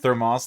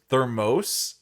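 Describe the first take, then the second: First: The second vowel is a short 'o' sound. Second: The second vowel is a long 'oh' sound. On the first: The speaker calls it right. "you say it like thermos, like moss" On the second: The speaker calls it wrong. "if it was thermos, eh, there would be an e at the end because it has to have an o sound"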